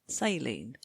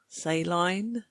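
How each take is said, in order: First: It is said with an American pronunciation. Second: It is said with a British pronunciation.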